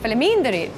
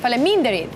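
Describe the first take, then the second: First: The stress falls on a non-native syllable. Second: The same.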